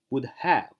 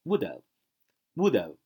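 First: "would have" slowly, each word complete; careful, separated "would have"; full-form have. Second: "would have" run together as "would-uv"; linked "WOULD have" with a weak schwa; reduced have. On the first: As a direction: say HAVE with a clear "h" and full vowel. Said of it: "它不读would have". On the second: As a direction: drop the "h" in "have", stress WOULD. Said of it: "而读would have". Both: Shown as a demonstration.

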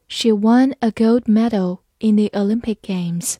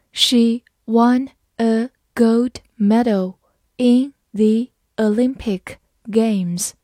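First: Said in the usual way. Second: Very slow, word by word; slow reading. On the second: Shown as a demonstration. Teacher modelling for students, very slow and clear. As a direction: read it slowly for the class to copy. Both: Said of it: "好，慢慢来读。".

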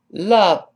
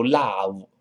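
First: Love stressed, clear v; correct love. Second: Love with an open ah, lau; wrong love. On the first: Teacher models Love with a clean v. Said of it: "李老师强调过的". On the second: Teacher shows the wrong love with ah. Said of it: "不要读love". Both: Shown as a demonstration.

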